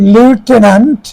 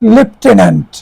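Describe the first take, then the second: First: The first syllable sounds like 'loo'. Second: The first syllable sounds like 'lef'. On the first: The speaker calls it wrong. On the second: The speaker calls it right.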